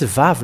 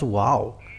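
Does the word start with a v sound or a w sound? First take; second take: v sound; w sound. First: The word begins with a v sound. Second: The word begins with a w sound. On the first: The speaker calls it right. "it's Vav" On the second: The speaker calls it wrong. "not wow"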